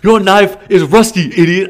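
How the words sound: It is said in a put-on Chinese accent.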